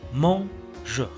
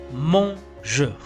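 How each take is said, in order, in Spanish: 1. La primera vocal suena como una 'o'. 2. La primera vocal suena como una 'o'.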